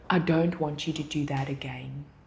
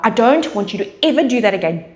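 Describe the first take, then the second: First: It sounds casual, without real warning. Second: It sounds firm, with pauses and clear words.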